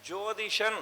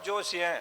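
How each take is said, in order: First: The second syllable begins with a th sound. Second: The second syllable begins with an s sound. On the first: The speaker calls it right. "வடமொழி சொல்" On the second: The speaker calls it wrong. "சரியா உச்சரிக்காம"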